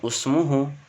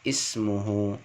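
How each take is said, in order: First: The word begins with a u vowel. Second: The word begins with an i vowel. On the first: The speaker calls it wrong. "bukan usmuhu" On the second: The speaker calls it right. "Jadi ismuhu"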